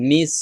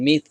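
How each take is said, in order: First: "মিস" ending in a hissed s; plain s ending. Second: "মিস" ending in th, as mith; touch the upper teeth to end "মিস" as th; tongue-to-teeth th. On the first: Teacher contrasting two like words, "মিস" with plain s. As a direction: end "মিস" on an ordinary clear s. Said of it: "তো এটা মিস, এটাও মিস". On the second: Teacher showing tongue placement, "মিস" lisped into mith. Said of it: "জিহ্বাটা উপরে দাঁতের সাথে লাগাইতে হবে". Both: Shown as a demonstration.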